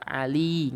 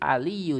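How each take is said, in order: First: The word ends with a plain short i. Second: The word ends with a doubled y and u. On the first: The speaker calls it wrong. "nggak ali" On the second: The speaker calls it right. "pakai tasjid aliyu dibaca"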